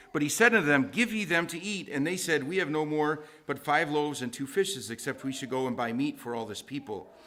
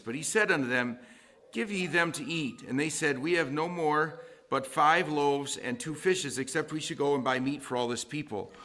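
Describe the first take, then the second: Both takes have the same delivery.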